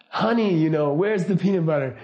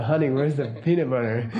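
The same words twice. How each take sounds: First: Mildly raised retold yell; mock yell. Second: Lightly imitated sweet talk; retold sexy way. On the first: Wife calls to husband through six walls, mild mock yell. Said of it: "she just yells". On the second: Wife comes down the hallway to ask, lightly imitated sexy way. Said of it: "talk to you even in a sexy way".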